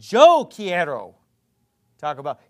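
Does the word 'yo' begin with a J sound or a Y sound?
J sound. The first word begins with a J sound. "if you went down to South America, it's going to be"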